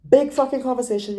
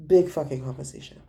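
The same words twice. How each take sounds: First: Big punched high and loud, mocking; sarcastic emphasis. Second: Said in the usual way. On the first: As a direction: sneer out Big fucking conversation, higher and louder. Mocking the French chat.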